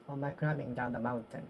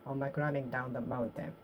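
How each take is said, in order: Both takes have the same delivery.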